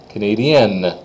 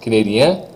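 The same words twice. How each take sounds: First: Canadienne falling onto its N; N hit hard. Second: Canadien rising on an open vowel; silent N exaggerated. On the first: Teacher lets students hear the difference, N stressed in canadienne. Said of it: "If I really hit that N". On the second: Teacher lets students hear the difference, no N in canadien. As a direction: leave the N off canadien. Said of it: "I'm gonna exaggerate it for you". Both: Shown as a demonstration.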